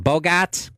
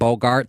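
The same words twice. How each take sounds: First: It is said in a heavy Boston accent. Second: It is said in a standard, non-Boston accent. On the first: "he has a real heavy Boston accent" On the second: "Instead of saying"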